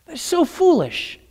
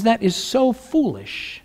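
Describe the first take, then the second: First: Higher and soft, "so" lifted; lightly voiced God, higher. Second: A hint of God, soft and slow, "so" drawn out. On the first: God laughs off the wicked's schemes, higher and soft. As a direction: lift the pitch, amused at their folly. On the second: God shakes his head at the wicked, soft and slow. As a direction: muse it softly, "so" lingering. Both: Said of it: "God says".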